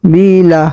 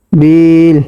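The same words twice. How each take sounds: First: Said in the usual way. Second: বিল said with the final vowel dropped, ending on a closed l; pausal stop form. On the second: Shown as a demonstration. Teacher showing students how to stop on the word, বিল clipped on the l. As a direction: cut বিল short on the l, no vowel after it. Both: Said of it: "অফ করলে".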